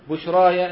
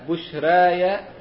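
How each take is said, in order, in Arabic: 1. الحركة الطويلة فتحة خالصة كالألف. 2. الحركة الطويلة بين الفتح والكسر. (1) "الفتح" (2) "والتقليل"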